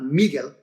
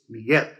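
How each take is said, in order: First: The stress is on the first syllable. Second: The stress is on the last syllable. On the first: The speaker calls it wrong. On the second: The speaker calls it right. "it's Miguel"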